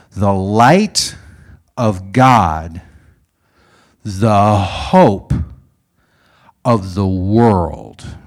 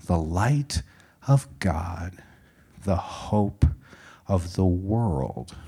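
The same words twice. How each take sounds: First: Loud, stretched phrases with long pauses; ringing ceremonial declaration; solemn proclamation. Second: Soft, slow phrases with pauses; gentle, measured storytelling hush; hushed echo. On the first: Retold or imitated. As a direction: proclaim it slowly to a crowd. Old man proclaims over the candlelit crowd. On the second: A narrator's reading. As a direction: recall it quietly and reverently, phrase by phrase. Narrator echoes the proclamation softly.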